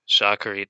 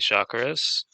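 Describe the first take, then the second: First: The word ends with a T sound. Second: The word ends with an S sound. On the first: "so they wouldn't say Shakarit" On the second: "they pronounce the Tav with as an S sound"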